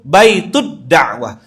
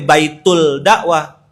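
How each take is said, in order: First: The L merges into a doubled D sound. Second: An L sound is heard before dakwah. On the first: The speaker calls it right. "Tempat antum tuh baitud dakwah" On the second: The speaker calls it wrong. "dia enggak pakai baitul dakwah"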